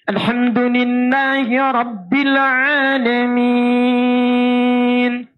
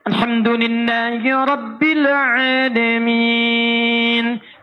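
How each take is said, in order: First: The stretched vowels are held very long. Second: The stretched vowels are held moderately long. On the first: "Enam harakat paling panjang" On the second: "Anda jadikan empat"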